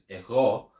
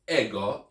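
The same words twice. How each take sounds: First: The stress is on the second syllable. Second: The stress is on the first syllable. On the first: The speaker calls it right. "emphasis is on the ro part" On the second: The speaker calls it wrong. "not the e. It's not ego"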